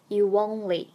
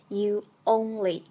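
First: A w-like glide links the two words. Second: The two words are said separately, without linking. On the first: The speaker calls it right. "而是you only。就想象中间夹了一个what 的音" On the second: The speaker calls it wrong. "两个元音连在一起不读作you only"

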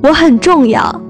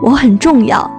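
First: It is said loudly and boldly. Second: It is said a little louder.

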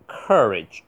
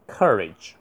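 First: The first vowel is plain, without r-coloring. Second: The first vowel is r-colored, with curled tongue. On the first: "英国可以读courage" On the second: "也可以读成courage 卷舌courage"

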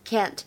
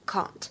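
First: It is said in an American accent. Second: It is said in a British accent. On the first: "美式英语当中呢，我们读作can't can't" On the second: "在英式英语当中呢，我们读作can't can't"

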